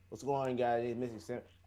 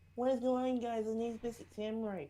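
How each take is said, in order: First: It is said in a deeper voice. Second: It is said in a high, babyish voice.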